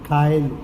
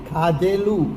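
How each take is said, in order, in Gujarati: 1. વચ્ચેનો વ્યંજન 'y' અવાજ છે. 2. વચ્ચેનો વ્યંજન 'dh' અવાજ છે. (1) "ધની જગ્યાએ એ ઉચ્ચારે" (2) "ખાધેલું નહીં"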